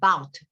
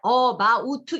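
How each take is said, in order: First: The first vowel is almost dropped. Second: The first vowel is said clearly and fully. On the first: The speaker calls it right. "마치 맨 앞에 A 철자가 없는 것처럼 발음하시면 about 이러면 더 정확한 발음이 돼요" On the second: The speaker calls it wrong. "우리는 그냥 about 이렇게 하고 싶죠"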